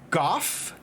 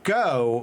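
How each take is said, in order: First: The name ends with an f sound. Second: The name ends with a vowel. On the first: This is the pronunciation found when looking it up. The speaker calls it right. "pronounced Goff, like G O F F" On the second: This is an alternative pronunciation without support. The speaker calls it wrong. "his pronunciation of it as Go"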